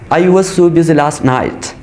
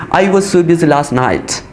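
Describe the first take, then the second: First: The word 'was' is said in reduced form. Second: The same.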